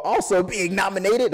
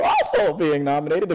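First: Voice crack. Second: Said in the usual way. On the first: Real, not acted. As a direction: voice cracking on a word. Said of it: "you heard my voice crack for a second there". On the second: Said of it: "you heard my voice crack".

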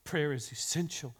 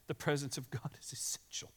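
First: Said in the usual way. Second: Hushed, unvoiced whisper. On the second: Shown as a demonstration. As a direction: breathe it as a secret. Whispered right after plain line.

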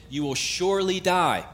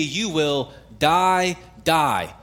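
First: "surely die" pitched high, falling at the end; stress on surely die. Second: "die, die" slow and weighty, each word separate; emphatic doubled DIE. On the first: Preacher quotes God warning Adam and Eve, stressing "surely die". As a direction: lift "surely" high, then drop on "die". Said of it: "that's an infinitive absolute". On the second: Preacher shows the literal Hebrew doubling, "die, die" heavily stressed. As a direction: stretch the first "die", pause, then land the second. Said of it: "it literally reads". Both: Shown as a demonstration.

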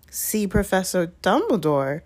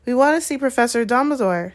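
First: Incredulous question with weight on DUMBLEDORE; suspicious repeat. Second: Higher, plucky statement; rather brave. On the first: McGonagall repeats the children's request, suspiciously. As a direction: repeat it as if it sounds very fishy. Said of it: "repeated as though this was a very fishy thing". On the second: Hermione asks McGonagall for Dumbledore, rather bravely. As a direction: speak up bravely to a teacher. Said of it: "said Hermione rather bravely". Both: A narrator's reading.

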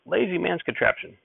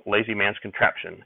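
First: Grumpy shout. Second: Understated grumble in an ordinary pitch; grumbling. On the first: Grandfather objects to the hay fork, shouting crankily. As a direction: cry it out high, without real volume. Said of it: "Grandfather would shout". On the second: Grandfather after the first load went up, grumbling mildly. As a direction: grumble it half-heartedly, the fire gone. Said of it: "Grandfather was still grumbling". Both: A narrator's reading.

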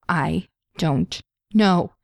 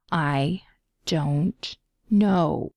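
First: Slow, deliberate. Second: Slow and clear. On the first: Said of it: "Pietro repeated". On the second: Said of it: "as slowly and clearly as he could". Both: A narrator's reading.

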